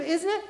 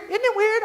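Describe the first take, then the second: First: "Isn't it" with a clear z; standard pronunciation. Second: "Isn't it" as "idn't it", high; small-town "Isn't it" with d replacing z; Southern slurred form. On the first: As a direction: correct form, every sound in "Isn't it". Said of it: "I'll say instead of". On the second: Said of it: "I'll say instead of, "Isn't it?". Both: Shown as a demonstration.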